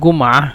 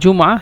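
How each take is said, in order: First: It begins with a colloquial hard g sound. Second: It begins with a standard j sound.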